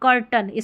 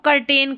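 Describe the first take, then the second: First: The last syllable has a reduced 'uh' vowel. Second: The last syllable has a full 'e' vowel. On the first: The speaker calls it right. "जो कर्टन इसका सही उच्चारण है" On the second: The speaker calls it wrong. "कर्टेन बोलते हैं"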